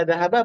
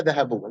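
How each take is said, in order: First: Dhahaba ending in a short "a"; akhiran fathah. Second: Dhahabu ending in a short "u"; akhiran dhammah. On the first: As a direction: say dhahaba with a final -a. (dhahaba dengan akhiran fathah "a") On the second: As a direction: say dhahabu with a final -u. (dhahabu dengan akhiran dhammah "u") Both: Shown as a demonstration. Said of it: "Mau dibaca dhahaba apa dhahabu".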